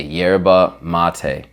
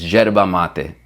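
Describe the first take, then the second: First: YERBA MATE slow, American, y start and "mah-tay"; deliberately Americanized yerba mate, drawn right out; American accent, stretched "YAIR-ba MAH-tay"; American pronunciation. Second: YERBA MATE with Argentine zh start and "mah-teh"; correct Argentine pronunciation. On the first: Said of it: "never hear me say it like that again". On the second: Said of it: "say it correctly too". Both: Shown as a demonstration.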